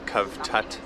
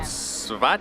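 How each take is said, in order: First: The name is said the South African way. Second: The name is said the local Croatian way. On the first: "As South Africans we would call it Kavtat" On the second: "I think I pronounced it correctly"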